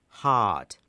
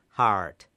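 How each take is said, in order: First: It is said in a British RP accent. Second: It is said in an American or Scottish accent. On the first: "英国的 RP 英语读心脏这个词读作 heart" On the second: "而美国人苏格兰人呢可能会读成 heart"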